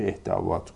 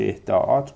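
First: اهدابات said "ehda-vat"; اهدابات with vav replacing the hamza; hamza turned to vav. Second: اهداءات said "ehda-at", with a hamza; اهداءات with hamza between the two A vowels; hamza kept. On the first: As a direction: put a V sound before the last "at" in اهدابات. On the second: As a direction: keep the glottal break before the last "at" in اهداءات. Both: Shown as a demonstration. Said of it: "بس دو وجهیه".

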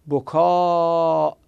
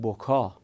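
First: بکا with the final alef held very long, closed by a hamza; long drawn-out ending. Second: بکا with a short final alef and no hamza; short ending. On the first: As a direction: stretch the end of بکا, then cut it with a glottal stop. («بکا» با الف کشیده و همزه در آخر) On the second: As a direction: end بکا on a brief open vowel, not stretched. («بکا» با الف کوتاه و بدون همزه) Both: Shown as a demonstration.

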